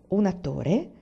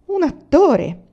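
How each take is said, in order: First: "Un attore?" with a light rising question; questioning echo. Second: Loud and high, flung out with pride; proud exclamation. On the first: A narrator's reading. Narrator repeats Emanuelson's answer as a mild question. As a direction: echo "Un attore" back, mildly curious. Echoes his claim as question. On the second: Acted. Emanuelson, asked what he is, loudly declares himself an actor. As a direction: proclaim "Un attore" like a stage announcement. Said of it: "esclamò".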